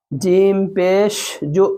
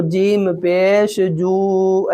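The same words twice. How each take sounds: First: Slow spelling-out, final "जु" cut short; brief u on "जु", no stretching; quick short pesh. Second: Final "जू" dragged out long; wrongly stretched pesh. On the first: Teacher showing pesh read quickly, short vowel. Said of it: "पेश को जल्दी पढ़ाऊँ ना". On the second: Teacher showing how not to read, drawn-out vowel. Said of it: "ऐसे नहीं पढ़ना है". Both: Shown as a demonstration.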